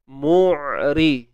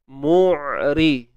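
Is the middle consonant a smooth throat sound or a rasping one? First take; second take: smooth; smooth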